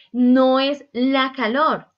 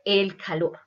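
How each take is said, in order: First: "No es la calor" slow and loud, "no" hit hard; stress on no. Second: Said in the usual way. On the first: Shown as a demonstration. Teacher correcting the class, slow and emphatic. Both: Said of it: "se dice el calor".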